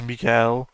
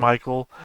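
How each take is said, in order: First: The name is pronounced the French way. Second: The name is pronounced the English way. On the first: "in French it's" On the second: "my name is"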